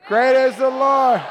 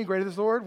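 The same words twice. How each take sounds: First: Loud, high rallying shout; touchdown yell. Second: Said in the usual way. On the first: Shown as a demonstration. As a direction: yell it like your team just scored. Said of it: "how loud you would yell during that". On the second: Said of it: "can y'all say that with me".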